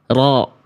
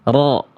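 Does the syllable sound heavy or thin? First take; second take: heavy; heavy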